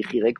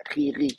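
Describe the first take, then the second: First: "Rirek", i first and then e; traditional vowel name. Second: "Ririk", the same i sound twice; only i vowels. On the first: Teacher showing why one may hesitate, "Rirek" with mixed i and e vowels. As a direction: say "Rirek" with an e in the last syllable. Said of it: "on peut hésiter". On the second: Teacher showing the vowel cannot be mistaken, "Ririk" with two i sounds. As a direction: say "Ririk" with i in both syllables. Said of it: "il n'y a que des i". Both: Shown as a demonstration.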